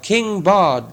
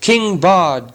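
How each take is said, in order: First: Higher, ringing cheer for the king; chanted cheer, higher pitched; crowd shout. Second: Higher, loud crowd cheer; hammed-up cheer for a new king; crowd shout. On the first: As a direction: call the name out again like the crowd. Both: A narrator's reading. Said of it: "they shouted".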